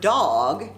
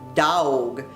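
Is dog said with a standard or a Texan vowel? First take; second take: standard; Texan. First: The vowel is a short plain o sound. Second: The vowel is a drawn-out aw sound.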